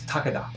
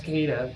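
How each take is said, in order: First: The name is said with a Japanese pronunciation. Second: The name is said with an American pronunciation. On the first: The speaker calls it right. "That's how you say it in Japanese" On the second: The speaker calls it wrong. "I guess we had to Americanize it"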